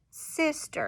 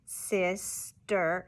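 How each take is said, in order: First: Said in the usual way. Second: "sister" slowly broken in two, sis and ster apart; students' syllable-by-syllable repeat of "sister"; chopped syllables. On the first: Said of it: "and then we slide it". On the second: Shown as a demonstration. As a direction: chop "sister" into separate beats. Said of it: "repeat what I do".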